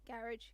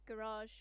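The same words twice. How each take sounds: First: It is said with a British pronunciation. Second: It is said with an American pronunciation. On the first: The speaker calls it wrong. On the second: The speaker calls it right.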